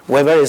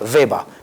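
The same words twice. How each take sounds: First: The name is pronounced the English way. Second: The name is pronounced the German way. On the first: "sería la pronunciación inglesa" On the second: "la pronunciación alemana"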